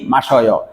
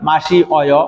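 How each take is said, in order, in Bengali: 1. শেষের অংশটি একটি দলের সঙ্গে মিশে যায়। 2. শেষের অংশটি আলাদা দল হিসেবে বলা হয়। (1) "উচ্চারণ হবে কি?" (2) "মাসিদা থেকে কি হয়?"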